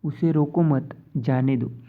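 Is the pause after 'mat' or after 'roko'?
after mat. A pause comes right after the word 'mat'. He should not be stopped; let him go. "एक शब्द आगे दिया है"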